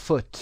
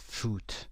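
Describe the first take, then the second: First: "foot" with the vowel kept short, not drawn out. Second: "فوت" with a long oo, as in food; wrong long vowel. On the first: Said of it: "اوی کشیده نخونید". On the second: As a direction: mispronounce foot as "فوت", vowel stretched. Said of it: "غذا تلفظش نکنید، نگید فوت". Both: Shown as a demonstration.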